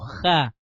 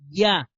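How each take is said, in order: First: It begins with a throaty h sound. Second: It begins with a y sound. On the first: The speaker calls it wrong. "no Ja" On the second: The speaker calls it right. "la verdadera pronunciación sería Ya"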